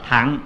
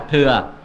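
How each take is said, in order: First: The word is said with the vowel a. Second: The word is said with the vowel ư. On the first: This is the proper reading. The speaker calls it right. "chứ có đúng là đọc là thẳng" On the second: This is the loose everyday reading. The speaker calls it wrong. "mình đọc trại trại là thừa"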